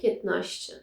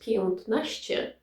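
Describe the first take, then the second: First: It is said casually, as in fast speech. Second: It is said carefully, as it is written. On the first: "you say piętnaście, especially when you talk fast" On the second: "you write piętnaście"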